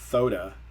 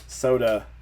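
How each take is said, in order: First: The word begins with a th sound. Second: The word begins with a clear s sound. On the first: The speaker calls it wrong. "they're saying thoda, and it's an actual, you know, the same sound" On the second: The speaker calls it right. "instead of soda"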